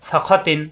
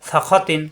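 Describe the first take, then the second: No difference in how they are said.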